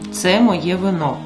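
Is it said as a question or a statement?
statement. It is said with statement intonation.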